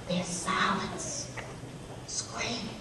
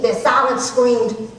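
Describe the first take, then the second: First: Very soft, slow and halting; hushed. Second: Said in the usual way. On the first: Acted. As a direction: drop almost to nothing, pausing before the last word. Recalls the women's silent rejection.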